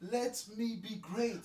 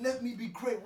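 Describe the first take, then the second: First: Slow drawn. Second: Pleading. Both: Acted.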